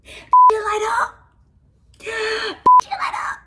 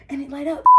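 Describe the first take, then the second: First: High, loud and drawn out in delight; gushing high over a gift that lights up; squealing with delight. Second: Said in the usual way. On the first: Real, not acted. Vlogger squealing high to the camera at a glowing gift.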